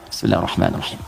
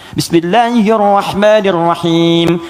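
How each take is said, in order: First: It is recited quietly, almost silently. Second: It is recited loudly and clearly.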